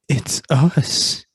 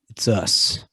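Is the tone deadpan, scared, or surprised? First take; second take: scared; deadpan. First: It is said in a scared way. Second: It is said flat and deadpan.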